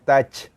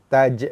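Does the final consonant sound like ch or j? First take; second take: ch; j. First: The word ends in a voiceless ch sound. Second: The word ends in a voiced, bouncing j sound. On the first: The speaker calls it wrong. "bukannya touch" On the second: The speaker calls it right. "taj bukannya touch"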